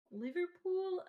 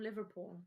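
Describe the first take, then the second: First: Higher, badly faked Scouse; attempted Scouse accent. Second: Said in the usual way. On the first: Shown as a demonstration. Trying how Liverpool natives say it, failed Scouse. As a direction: try a Scouse accent and miss. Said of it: "Okay, I can't do that". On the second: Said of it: "I can't do that".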